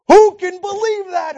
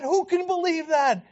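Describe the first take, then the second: First: Loud, high cry of disbelief; mocking the preachers, loud and high; incredulous outburst. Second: Said in the usual way. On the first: Real, not acted. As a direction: exclaim it in disbelief.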